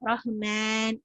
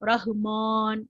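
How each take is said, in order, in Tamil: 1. நீண்ட உயிர் 'e' ஒலியை நோக்கிச் சாய்ந்திருக்கிறது. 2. நீண்ட உயிர் முழுமையாகத் திறந்த 'a' ஒலி. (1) "இப்படியும் இல்ல. சோ சாய்க்க கூடாது" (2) "மான் இல்ல. ரஹ்மான்"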